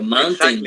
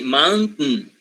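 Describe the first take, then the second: First: A full vowel is heard between t and n. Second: The n follows the t with no vowel. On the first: The speaker calls it wrong. "You don't say mountain" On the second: The speaker calls it right. "You say mountain"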